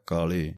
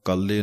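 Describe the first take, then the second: First: ਕਾਲੇ with a light single l; ਕਾਲੇ ਪੋਲਾ; soft pronunciation. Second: ਕਾਲੇ with a hard, doubled l; ਕਾਲੇ ਕੱਸ ਕੇ; wrong tight pronunciation. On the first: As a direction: say ਕਾਲੇ gently. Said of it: "ਪੋਲਾ ਜਿਹਾ ਉਚਾਰਨ ਹੈ". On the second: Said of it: "ਇਹਨੂੰ ਕਾਲੇ ਨਹੀਂ ਕਹਿਣਾ ਕੱਸ ਕੇ". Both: Shown as a demonstration.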